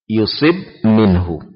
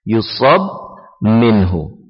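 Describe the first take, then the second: First: The vowel after the s is i. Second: The vowel after the s is a. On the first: God decrees misfortunes on him to test him. "dibaca dengan mengkasrah huruf sad" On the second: He is afflicted, from God or from others. "dibaca dengan memfathah huruf sad"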